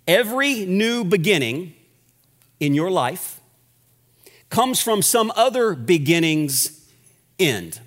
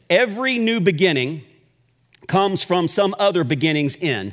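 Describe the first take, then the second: First: It is said slowly. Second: It is said at a normal pace.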